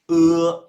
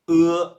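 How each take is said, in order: Both takes have the same delivery.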